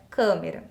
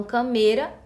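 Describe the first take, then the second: First: "câmera" stressed on the first syllable; correct pronunciation of câmera. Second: "câmera" mispronounced as ca-MEI-ra; wrong stress on câmera. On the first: Teacher gives students the real word, "câmera" stressed on câ. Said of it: "A palavra é câmera". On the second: Teacher dismisses the incorrect form, "câmera" said with stress on me. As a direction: stress the middle syllable of "câmera". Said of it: "não existe, tá incorreto". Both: Shown as a demonstration.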